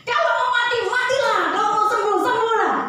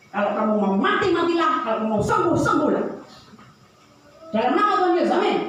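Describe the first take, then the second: First: Put-on very high, loud child parroting the pastor; a kid proudly repeating the blessing; child copying the prayer. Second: Lightly voiced pastor, dismissive prayer; tossed-off blessing; offhand prayer. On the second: Pastor's offhand prayer over cow.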